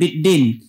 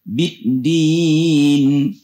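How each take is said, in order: First: The i vowel sounds dull, close to e. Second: The i vowel sounds sharp and clear. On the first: The speaker calls it wrong. "Jangan biddin" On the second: The speaker calls it right. "biddin I ya"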